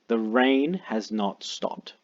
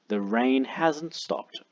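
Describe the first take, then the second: First: Has and not are said as two words. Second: Has and not merge into one contracted word.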